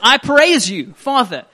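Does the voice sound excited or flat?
excited. The voice is lively with more excitement. The speaker calls it right. "maybe a little bit more excitement in his voice"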